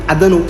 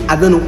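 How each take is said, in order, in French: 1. Les mots sont coupés et enchaînés vite. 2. Les mots sont coupés et enchaînés vite.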